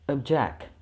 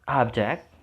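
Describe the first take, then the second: First: The stress is on the last syllable. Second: The stress is on the first syllable. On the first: It is used as a verb. "switch it into the last syllable when it functions as verb" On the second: It is used as a noun. "put the stressing on the first syllable when it functions as noun"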